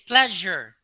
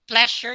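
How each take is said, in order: First: The middle consonant is a buzzing Z sound. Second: The middle consonant is a hissing S sound. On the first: The speaker calls it right. "you say pleasure. Th- that is a Z sound" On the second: The speaker calls it wrong. "you do not say pleasure"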